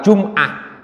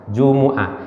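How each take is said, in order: First: The m is closed, with no vowel after it. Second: A u vowel follows the m. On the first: The speaker calls it wrong. "ora jum" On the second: The speaker calls it right. "itu mimnya tidak sukun dibaca mi yaumil jumu'at"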